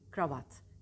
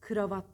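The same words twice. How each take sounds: First: No vowel is heard between K and R. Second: A vowel is heard between K and R. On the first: The speaker calls it right. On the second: The speaker calls it wrong.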